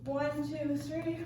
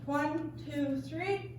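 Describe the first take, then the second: First: The count is spoken at a faster pace. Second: The count is spoken at a slower pace. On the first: "just a little faster" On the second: "instead of doing"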